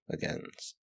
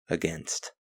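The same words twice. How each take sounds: First: The word is said unclearly, slurred. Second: The word is said clearly and carefully. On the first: The speaker calls it wrong. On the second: The speaker calls it right.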